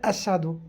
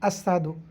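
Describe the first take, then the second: The two takes are said the same way.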